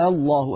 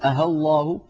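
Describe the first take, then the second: First: The second hamza becomes a very long a vowel. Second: The second hamza is replaced by a plain h sound. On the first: The speaker calls it right. "بالإبدال" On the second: The speaker calls it wrong. "يقلبونها هاء خالصة"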